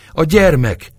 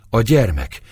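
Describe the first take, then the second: First: Panting, much higher and louder cry. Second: Panting. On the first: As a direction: gasp it out in rising panic. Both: A narrator's reading. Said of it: "liegte Éva".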